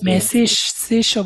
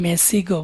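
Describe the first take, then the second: First: The word ends in a soft sh-like sound. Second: The word ends in a hard g sound. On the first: This form is used in some regions. "গিয়ের উচ্চারণটা অনেক সময় তালিবাস হয়" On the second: This form is used in other regions. "অনেক সময় গ হয়"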